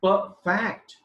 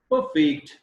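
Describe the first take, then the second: First: "perfect" stressed on FECT, slow; verb stress. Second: "Perfect" stressed on PER, slow; noun stress. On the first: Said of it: "is verb". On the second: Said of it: "is noun". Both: Shown as a demonstration.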